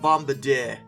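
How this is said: It is pronounced with a French-style pronunciation. "Apparently I'm supposed to say it the French way"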